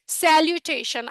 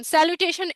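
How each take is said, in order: First: স্যালুটেশন sounded out slowly; teacher slowly modelling স্যালুটেশন; pronunciation demo. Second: Said in the usual way. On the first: Shown as a demonstration. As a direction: say স্যালুটেশন slowly and carefully for learners to copy. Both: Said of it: "এটার উচ্চারণটা দেখেন".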